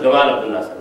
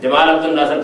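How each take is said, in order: First: The first sound is a hard g sound. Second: The first sound is a j sound.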